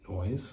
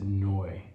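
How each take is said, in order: First: The name ends with a z sound. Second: The name ends without any final consonant. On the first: This is how the family says it. "Pronounced. Pro- noise" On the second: An English person said it this way. "he pronounced it Noy"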